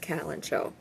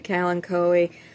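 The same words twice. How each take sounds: First: It is said the British way. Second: It is said the American way. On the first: "if you're in Britain, it's it's typically pronounced kalanchoe" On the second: "If you're in the U S, you say kalanchoe"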